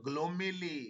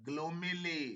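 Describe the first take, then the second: No difference in how they are said.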